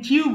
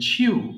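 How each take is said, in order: First: The first sound has no puff of air. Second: The first sound has a puff of air. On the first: The speaker calls it wrong. "এটাকে চিউ বলবেন না" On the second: The speaker calls it right. "ছ দিয়ে উচ্চারণ করবেন"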